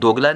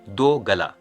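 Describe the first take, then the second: First: It is said as one joined word. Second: It is said as two separate words. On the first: It is the insulting word. The speaker calls it wrong. "दोगला नहीं" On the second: It means a person with two throats. The speaker calls it right. "हम दो गला भी उच्चारण कर सकते हैं"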